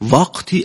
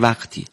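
First: The first vowel sounds overdone and distorted. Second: The first vowel sounds plain and natural. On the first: The speaker calls it wrong. "انگار که این یه ذره زیادی داره در واقع اون وعه وا نیست" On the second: The speaker calls it right. "ما میگیم وقتی"

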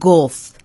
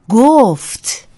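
First: The final consonant is swallowed and barely heard. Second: The final consonant is clearly and fully pronounced. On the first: The speaker calls it wrong. "جویده جویده حرف نزنیم ... مثلا نگیم گفت" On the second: The speaker calls it right. "حتما همه ی حروف کلمات رو ادا کنیم، به ویژه آخرین حرف از فعلها"

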